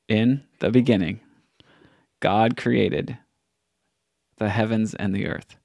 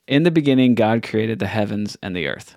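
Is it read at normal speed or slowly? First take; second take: slowly; normal. First: It is read a little more slowly. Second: It is read at a normal pace.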